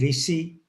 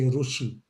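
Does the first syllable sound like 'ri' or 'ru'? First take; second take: ri; ru. First: The first syllable has a 'ri' sound. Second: The first syllable has a 'ru' sound. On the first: This is the regional form used in another region. "They say" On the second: This is the regional form used in the speaker's home region. "we say"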